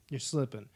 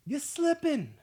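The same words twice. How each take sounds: First: Said in the usual way. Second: You're slipping much higher and louder, slipping falling hard; fired-up callout. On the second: Real, not acted. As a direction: shout slipping as a playful dig. Calling out viewers.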